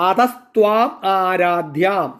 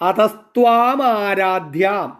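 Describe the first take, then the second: Both takes have the same delivery.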